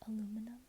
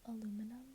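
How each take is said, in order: Both takes have the same delivery.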